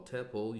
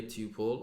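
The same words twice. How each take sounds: First: "tuple" with a short first vowel; alternative pronunciation. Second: "tuple" with its long first vowel; long-vowel pronunciation. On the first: Teacher offers the other accepted name, "tuple" with short vowel. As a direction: say "tuple" as TUP-ul. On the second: Teacher offers the first of both names, "tuple" with long vowel. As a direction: say "tuple" as TOO-pul. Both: Shown as a demonstration. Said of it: "other people pronounce it as tuple".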